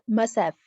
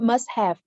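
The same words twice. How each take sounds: First: The word have is reduced and blended in. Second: The word have is pronounced fully and clearly. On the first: The speaker calls it right. "the reduction of have" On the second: The speaker calls it wrong. "it's not must have"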